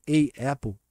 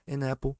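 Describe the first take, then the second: First: "a apple" with a pause between a and apple; a apple with a break. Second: "An apple" run together as one word; linked an apple. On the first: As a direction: say "a apple" with a gap, a then apple. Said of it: "você vai dar uma pausa". ("a apple" com pausa entre as palavras) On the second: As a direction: link "An apple" smoothly, n into apple. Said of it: "fica tudo junto". ("An apple" tudo junto, ligado) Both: Shown as a demonstration.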